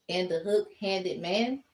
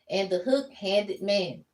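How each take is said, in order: First: The voice rises at the end like a question. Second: The voice falls at the end like a statement. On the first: It is asked as a question. The speaker calls it right. "It's a question" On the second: It is a plain statement. The speaker calls it wrong. "I said it wrong"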